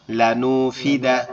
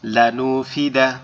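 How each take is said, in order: First: "লানু ফি দা" আলাদা আলাদা অংশে, ধীরে; "লানু", "ফি", "দা" তিন টুকরো করে ধীরে বলা; বানান শেষে জোড়া দেওয়া. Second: "লানুফিদা" এক টানে ধীরে, স্পষ্ট উচ্চারণে; "লানুফিদা" পুরো শব্দ একসাথে ধীরে পড়া; রিডিং পড়া. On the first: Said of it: "আমি বানানগুলো করব". (বানান শেষে "লানু ফি দা" টুকরো টুকরো করে ধীরে) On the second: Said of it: "এটা আমি রিডিং পড়ব". (বানান নয়, রিডিং হিসেবে "লানুফিদা" ধীরে) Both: Shown as a demonstration.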